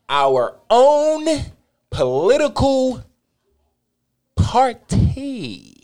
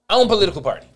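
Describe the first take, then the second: First: It is said slowly. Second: It is said fast.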